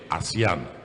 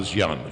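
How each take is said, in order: First: The word is said as ah-see-an. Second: The word sounds like the word Asian. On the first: The speaker calls it right. "you say ASEAN" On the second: The speaker calls it wrong. "you don't say"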